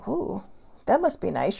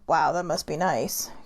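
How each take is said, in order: First: It sounds upbeat and positive. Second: It sounds solemn and sad.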